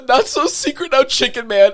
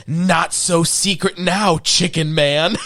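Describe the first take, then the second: First: Quoting the taunt. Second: Smug taunt. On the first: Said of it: "is the best line of the whole movie". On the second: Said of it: "Billy looking at the card going". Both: Retold or imitated.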